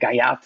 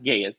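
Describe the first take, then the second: First: The name ends with a t sound. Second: The name ends with an s sound. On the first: The speaker calls it right. "the proper pronunciation, or you know, academic pronunciation" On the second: The speaker calls it wrong. "it's not Gayas"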